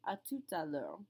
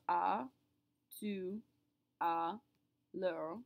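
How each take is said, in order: First: Words run together, with the T sounded. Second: Words are said separately, with the T silent. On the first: "Do you hear that second T that gets pronounced" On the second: "when I say each word separately"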